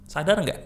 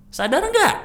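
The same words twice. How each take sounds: First: Said in the usual way. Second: Much higher and louder, nggak punched; rising loud jab on nggak; emphatic loud challenge. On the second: Shown as a demonstration. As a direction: call them out sharply. Repeated emphatic challenge to audience.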